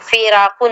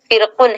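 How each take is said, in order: First: The r is followed by an a vowel. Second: The r is followed directly by the k. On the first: The speaker calls it wrong. "फिराकुन नहीं है" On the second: The speaker calls it right. "फिरकुन है ये"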